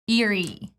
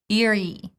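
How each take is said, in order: First: The first vowel is a short relaxed I. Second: The same.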